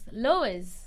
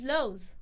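First: The final e is sounded as an extra syllable. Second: The word is said as one syllable. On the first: The speaker calls it wrong. "I was pronouncing the E" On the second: The speaker calls it right. "It's Lowe's"

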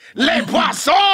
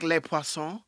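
First: It is said in a hard French Canadian accent. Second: It is said in a plain standard French accent.

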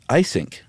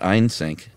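First: The name is said without an extra n sound. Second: The name is said with an extra n sound. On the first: The speaker calls it right. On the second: The speaker calls it wrong.

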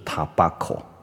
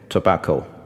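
First: It is pronounced in a Japanese way. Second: It is pronounced in an English way. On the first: The speaker calls it wrong. "tobacco 就很日式的念法" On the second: The speaker calls it right. "这个字我们是念tobacco"

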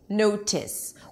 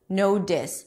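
First: The middle consonant is a crisp, released T. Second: The middle consonant is a full, firm D. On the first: "if I pronounce it with a true T" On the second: "it's not a real D because I don't say no dis"

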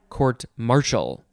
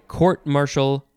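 First: The stress falls on the second word. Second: The stress falls on the first word. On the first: "or the second" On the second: "Emphasize the first"

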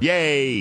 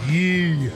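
First: The vowel rhymes with 'say'. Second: The vowel rhymes with 'see'. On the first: The speaker calls it right. "Is it yay?" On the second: The speaker calls it wrong. "I don't think that's the way you say it"

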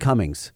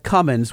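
First: The name ends with a g sound. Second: The name ends without a g sound. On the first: The speaker calls it wrong. "Where's the G coming from" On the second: The speaker calls it right. "There's no G"

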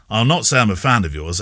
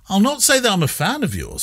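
First: It sounds grudging and hostile. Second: It sounds warm and friendly.

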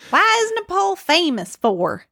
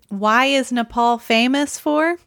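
First: It is said in a Southern US accent. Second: It is said in the speaker's ordinary accent.

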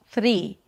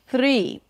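First: The R is a quick tongue flap. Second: The R is a quick tongue flap.

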